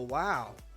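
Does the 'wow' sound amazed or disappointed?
amazed. It sounds amazed and impressed.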